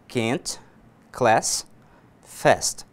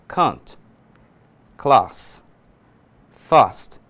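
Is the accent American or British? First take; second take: American; British. First: The vowel A is flatter, in an American accent. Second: The vowel A is more open, in a British accent. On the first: "Essa é a pronúncia americana" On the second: "para o inglês britânico, eu vou dizer"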